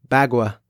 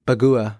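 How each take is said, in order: First: Bagua said as BAG-wah, two syllables; second pronunciation. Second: Bagua said as buh-GOO-uh, three syllables; alternative pronunciation. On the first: Podcaster retrying an attack name, Bagua as BAG-wah. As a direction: try Bagua with a short a, like bag plus wah. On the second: Podcaster correcting an attack name, Bagua as buh-GOO-uh. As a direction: try Bagua with a long oo in the middle. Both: Real, not acted.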